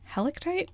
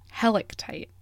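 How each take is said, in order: First: Helictite said as HEL-ick-tite, much higher with a rising question. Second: Said in the usual way. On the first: Shown as a demonstration. Actor unsure how to say Helictite, asking it higher. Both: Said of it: "Helictite or helictite?".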